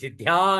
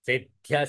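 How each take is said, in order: First: The final vowel is held long. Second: The final vowel is kept short. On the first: The speaker calls it wrong. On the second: The speaker calls it right.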